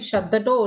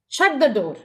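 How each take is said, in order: First: It is said in a flat, neutral way. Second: It is said in a firm, commanding way. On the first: It is a plain statement. "platonic statement" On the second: It is an order to be obeyed. "I can give it an order"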